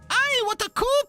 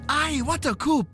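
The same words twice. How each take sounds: First: It is said in a put-on character voice. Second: It is said in the speaker's normal voice.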